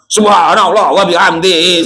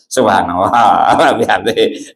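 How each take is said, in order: First: It is said with lively, eager energy. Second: It is said slowly and drowsily, with low energy. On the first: The speaker is excited about a big reward. "wah semangat" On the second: The speaker is unimpressed by a small reward. "sambil ngantuk"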